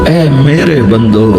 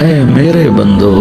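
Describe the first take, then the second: No difference in how they are said.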